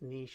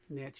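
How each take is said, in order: First: It is said the French way. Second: It is said the American way.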